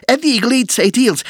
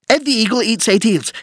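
No difference in how they are said.

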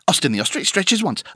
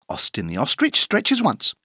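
First: The sentence is said at a very fast pace. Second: The sentence is said at a fast pace. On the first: "Encore plus vite" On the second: "plus vite"

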